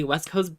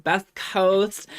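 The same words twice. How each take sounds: First: Said in the usual way. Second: Best coast, said louder and higher as a cheeky pun; playful pun. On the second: Shown as a demonstration. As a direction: play up the word best as a proud joke.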